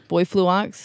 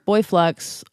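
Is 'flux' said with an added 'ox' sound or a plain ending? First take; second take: added ox; plain ending. First: Flux ends with an added ox sound. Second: Flux ends with a plain ks sound.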